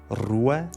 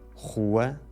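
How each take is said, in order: First: The R is rolled with the tongue tip. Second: The R is made at the back of the throat. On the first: This is the older pronunciation. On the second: This is the newer pronunciation that replaced the older one.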